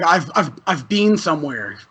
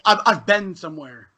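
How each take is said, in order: First: "been" said like "bean"; Canadian "been" with a long ee vowel; Canadian pronunciation. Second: "been" said like "Ben"; American "been", short and lax; American pronunciation. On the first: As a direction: say "been" the Canadian way, rhyming with "seen". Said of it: "Canadian will say". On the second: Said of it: "But, like, Americans say". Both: Shown as a demonstration.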